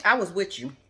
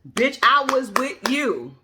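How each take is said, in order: First: Said in the usual way. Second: "Bitch, I was with you" slowed right down and louder, each word leaned on; emphatic repeat. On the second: Shown as a demonstration. Scolding a TV guest who lost her, slow emphatic repeat. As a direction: drive it home, slow and firm.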